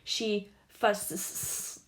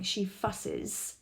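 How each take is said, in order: First: The ending adds only a bare s sound. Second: The ending adds an extra 'iz' syllable. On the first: The speaker calls it wrong. "You wouldn't add the sound S to something that already sounds like S. That would be" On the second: The speaker calls it right. "So you hear the sound sis"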